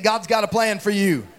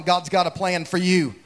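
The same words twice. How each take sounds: First: Firm, emphatic declaration; like you mean it. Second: Said in the usual way. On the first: Shown as a demonstration. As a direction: say it with real conviction. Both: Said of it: "say it like you mean it".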